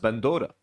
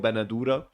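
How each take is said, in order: First: It is said in a Palestinian way, two syllables. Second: It is said in a Lebanese way, three syllables.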